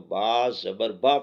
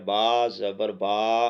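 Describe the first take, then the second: First: The final vowel is kept short. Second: The final vowel is drawn out long. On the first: The speaker calls it right. "बा ज़बर बा पढ़ा जाएगा" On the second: The speaker calls it wrong. "तो ये लंबा हो गया"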